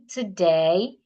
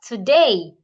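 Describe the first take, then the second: First: The pitch rises on the word. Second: The pitch falls on the word. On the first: The speaker calls it right. "expect to use a rising tone at the end of your question" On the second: The speaker calls it wrong. "not today"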